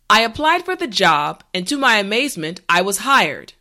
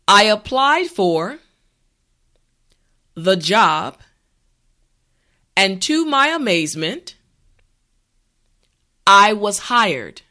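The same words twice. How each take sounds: First: The sentence is said at a natural pace. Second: The sentence is said at a slow pace. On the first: "this time we will go at a more natural pace" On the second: "this time repeat after me"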